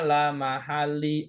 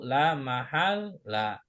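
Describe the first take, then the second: First: The word ends with an i vowel. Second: The word ends with an a vowel. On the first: The speaker calls it wrong. "nggak boleh dibaca" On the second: The speaker calls it right. "harokat cuma satu"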